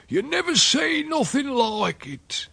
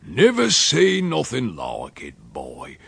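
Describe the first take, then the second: First: Put-on very high, slow, drawn-out old countryman; heightened rustic amazement. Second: Slow rustic grunt, dropping on the last word; grunted amazement. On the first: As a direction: repeat it higher, marvelling. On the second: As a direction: grunt it out like an old countryman. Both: A narrator's reading. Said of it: "and grunted".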